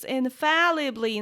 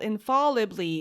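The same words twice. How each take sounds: First: The second syllable rhymes with pal. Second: The second syllable sounds like fall. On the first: The speaker calls it right. "It's infallibly" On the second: The speaker calls it wrong. "not infallibly. It's not from falling"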